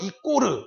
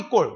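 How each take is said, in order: First: It is said with an extra vowel at the end. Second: It is said with a tense 'kk' and clipped end. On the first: It reflects an even more old-fashioned pronunciation. "심지어는 이꼬르 이렇게 하시는 분들이 있었잖아요" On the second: It reflects an older habitual pronunciation. "저희 때만 하더라도 이꼴 이꼴"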